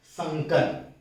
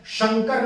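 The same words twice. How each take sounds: First: संकर with an initial "s" sound; dental s. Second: शंकर with an initial palatal "sh" sound. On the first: Teacher correcting the term for mixed-language words, clear "s" in संकर. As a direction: say संकर starting with a plain "s", not "sh". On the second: Teacher showing students the form to avoid, palatal "sh" in शंकर. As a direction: say शंकर starting with "sh", not "s". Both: Shown as a demonstration. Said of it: "तालव्य श नहीं आएगा".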